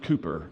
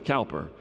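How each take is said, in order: First: The first syllable rhymes with 'coo'. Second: The first syllable rhymes with 'cow'. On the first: The speaker calls it right. "it's pronounced Cooper" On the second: The speaker calls it wrong. "I had been mispronouncing for 30 some odd years"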